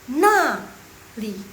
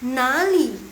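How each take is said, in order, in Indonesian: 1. Suku pertama punya nada turun yang tajam. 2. Suku pertama punya nada rendah yang turun-naik. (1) "nada keempat tuh dia agak ngegas" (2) "nada ketiga dia untuk bertanya"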